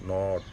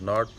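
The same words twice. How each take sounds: First: The vowel is said long and drawn out. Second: The vowel is said short and clipped. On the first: The speaker calls it right. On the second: The speaker calls it wrong.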